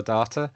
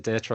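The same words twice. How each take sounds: First: "data" said as DAH-ta; DAH-ta pronunciation. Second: "data" said as DAY-ta; DAY-ta pronunciation. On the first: Speaker contrasting pronunciations for the audience, "data" as DAH-ta. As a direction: say "data" with an open ah. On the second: Speaker contrasting pronunciations for the audience, "data" as DAY-ta. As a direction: say "data" with a long ay. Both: Shown as a demonstration. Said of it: "apologies if there's anybody, um, American".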